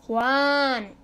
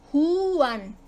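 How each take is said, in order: First: "Juan" as one beat with a long A; stress on the A. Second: "Juan" stretched as hu-an; vowels pulled apart. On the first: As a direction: lengthen the a in "Juan", u gliding into it. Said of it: "en la A". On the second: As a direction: dwell on the u of "Juan" before the an. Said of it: "Débil, fuerte". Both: Shown as a demonstration.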